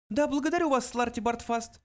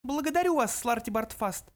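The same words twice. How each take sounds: First: High mouse voice, offhand; careless. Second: High mouse voice, cold dismissal. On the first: Mouse dismisses the old man, careless. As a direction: toss off the thanks in a little high voice. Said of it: "небрежно произнёс Бенджи". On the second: Mouse silences the protesting old man, cold. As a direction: cut him off coldly, up high. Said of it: "холодно отрезал Бенджи". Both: A narrator's reading.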